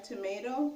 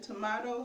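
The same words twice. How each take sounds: First: Said in the usual way. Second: "tomato" with "ah" in the middle; tomahto pronunciation. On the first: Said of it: "pronounce it tomato". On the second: Shown as a demonstration. Teacher shows how some people say it, "tomato" as to-MAH-to. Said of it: "Some people n-, pronounce it".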